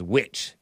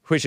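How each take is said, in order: First: WHICH said like "witch", no H; H dropped. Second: WHICH with a breath of H before the W; H sounded. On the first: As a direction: leave the H out of "which". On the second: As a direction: say "which" as "hwich". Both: Shown as a demonstration. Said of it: "out the H".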